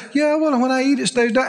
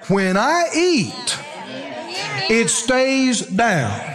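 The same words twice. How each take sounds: First: Careless, offhand "when I eat, it stays down"; half-hearted saying. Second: Very slow, every word placed deliberately; firm declaration. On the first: Retold or imitated. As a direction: toss it off without believing it. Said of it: "this is where people lose it". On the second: Shown as a demonstration. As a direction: declare it slowly, like a settled fact. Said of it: "you stand up and you say".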